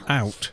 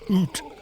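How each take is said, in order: First: The vowel is a gliding 'ow' sound. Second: The vowel is a long 'oo' sound. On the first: This is the modern way the word is said. "out with an ow, ow sort of sound" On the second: This is how the word was said in Old English. "So it was oot, the more Germanic sounding"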